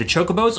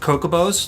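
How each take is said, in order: First: The word begins with a soft 'ch' sound. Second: The word begins with a hard 'k' sound.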